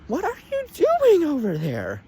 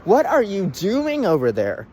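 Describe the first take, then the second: First: Much higher, squeaky repeat of the question; hammed-up high-pitched scolding; exasperated squeal. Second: Said in the usual way. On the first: Reviewer asks Disney what they're doing, exasperated squeal.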